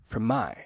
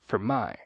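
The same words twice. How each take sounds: Both takes have the same delivery.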